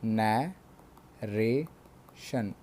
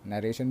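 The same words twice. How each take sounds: First: नैरेशन split slowly into नै, रे, शन; three separate syllables. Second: Said in the usual way. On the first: Shown as a demonstration. (नैरेशन को तीन बार तोड़कर, धीरे-धीरे) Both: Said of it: "जो तीन बार तोड़कर बोले जा सके".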